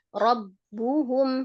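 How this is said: The word is broken apart by an emphatic stress. The speaker calls it wrong. "kepisah enggak?"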